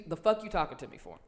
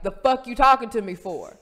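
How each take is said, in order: First: Imitated offhand brush-off at an everyday volume; dismissive shrug. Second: Loud, higher, confrontational retort; louder repeat. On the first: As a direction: shrug the question off. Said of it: "First, it came with a shrug". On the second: Retold or imitated. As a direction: throw it back over the noise. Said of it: "because it was loud in the place".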